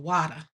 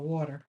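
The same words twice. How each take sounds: First: It is said with a Texas accent. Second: It is said with a standard accent.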